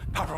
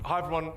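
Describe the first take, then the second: First: It is spoken very quickly without pauses. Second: It is spoken at a moderate, lively pace. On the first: The speaker seems rushed. The speaker calls it wrong. "I speak really quickly" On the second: The speaker seems engaged and excited. The speaker calls it right. "if we go to about a six"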